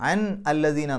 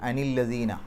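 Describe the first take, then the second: First: The first word ends in a bare n sound. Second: An added i vowel links n to the next word. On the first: This is the form before joining the words. The speaker calls it wrong. "അൻ എന്ന് പറയുമ്പോൾ നൂനിന് സുക്കൂന്" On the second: This is the form used in recitation. The speaker calls it right. "അവിടെ അൻ എന്നുള്ളത് അനി എന്നാക്കി"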